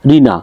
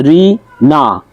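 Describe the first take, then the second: First: Said in the usual way. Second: রিনা slowly split as রি, না; two separate beats on রিনা; syllable by syllable. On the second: Shown as a demonstration. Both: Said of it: "তো এইভাবে যেমন".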